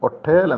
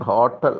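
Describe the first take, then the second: First: The word starts with a vowel sound. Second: The word starts with an h sound. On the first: This is the old pronunciation. "പണ്ട് കാലത്ത് ഇതിൻ്റെ ഉച്ചാരണം ഒട്ടേൽ എന്നായിരുന്നു" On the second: This is the present-day pronunciation. "ഇന്ന് ഹോട്ടൽ ഹ എന്ന സൗണ്ടിൽ തന്നെ വരുന്നുണ്ട്"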